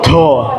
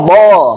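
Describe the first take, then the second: First: Breath escapes with the consonant. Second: No breath escapes with the consonant. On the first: The speaker calls it wrong. "dia tidak boleh keluar nafas. Jadi bukan" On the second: The speaker calls it right. "Tapi bo"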